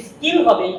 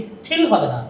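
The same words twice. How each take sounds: First: Said in the usual way. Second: স্কিল said as স্থিল, lower, with a puff of air; the wrong breathy স্কিল; wrong aspirated k. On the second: Shown as a demonstration. (ভুল উচ্চারণ: স্খিল)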